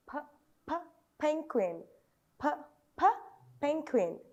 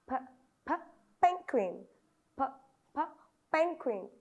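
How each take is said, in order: Both takes have the same delivery.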